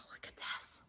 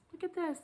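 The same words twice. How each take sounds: First: Barely voiced, stunned whisper; awestruck whisper. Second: High, soft voice of wonder; hushed excitement. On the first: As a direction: whisper it, amazed by the gift. Showing the surprise gift, overcome. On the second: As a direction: show it off in a small high voice. Repeats it voiced, showing gift. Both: Real, not acted.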